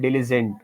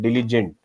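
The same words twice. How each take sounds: First: The middle consonant is pronounced as a z. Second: The middle consonant is not pronounced as a z. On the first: The speaker calls it wrong. "you said diligent or something like that. There was a Z pronunciation" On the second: The speaker calls it right. "so diligent, right?"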